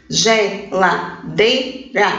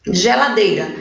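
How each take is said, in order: First: Slow "geladeira" in four pieces, ge-la-dei-ra; syllable by syllable. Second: Said in the usual way. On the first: Shown as a demonstration. Teacher counting syllables for pupils, "geladeira" slowly broken into ge-la-dei-ra. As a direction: pause between each syllable of "geladeira". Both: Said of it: "ela tem quatro sílabas".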